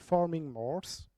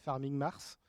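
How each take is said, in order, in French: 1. Il est prononcé avec un accent anglais. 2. Il est prononcé avec un accent français.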